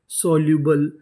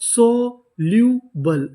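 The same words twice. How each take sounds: First: Said in the usual way. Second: soluble drawn out very slowly, syllable by syllable; slow demo. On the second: Shown as a demonstration. Teacher sounding out soluble slowly for the class. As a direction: stretch each sound of soluble for students. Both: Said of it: "तो हमारी इतनी meaning क्या बनी?".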